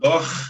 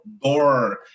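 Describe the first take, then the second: First: The R is a guttural Rio de Janeiro R. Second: The R is a retroflex São Paulo interior R.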